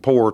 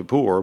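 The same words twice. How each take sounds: First: "poor" said like "pore"; Southern "poor", rhyming with "door"; Southern pronunciation. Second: Said in the usual way. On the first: Shown as a demonstration. Author showing the form he prefers, Southern pronunciation. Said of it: "poor because they sound".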